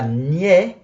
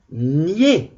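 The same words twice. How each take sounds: First: "niais" said as gnè, with an open è; open è ending. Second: "Niais" said as gné, with a long closed é; closed é ending. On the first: Teacher showing the sound to avoid, "niais" with open è. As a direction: open the vowel of "niais" to è, as in balai. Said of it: "Pas niais". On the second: Teacher correcting for the dictation, "Niais" with closed é. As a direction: hold a tight é at the end of "Niais", not è. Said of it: "accent aigu pour et". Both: Shown as a demonstration.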